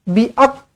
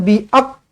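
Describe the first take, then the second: The two takes are said the same way.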